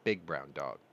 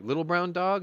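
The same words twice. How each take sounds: First: Lower, flat correction "Big brown dog."; UPS guy correcting. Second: High, louder incredulous check on "Little brown dog?"; asking it high and loud, hoping it's Charlie; surprised question. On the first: UPS driver correcting the dog owner, lower and matter-of-fact. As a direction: set him straight, voice dropped. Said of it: "And he goes". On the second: To the UPS driver about the lost dog, a high surprised question. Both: Retold or imitated.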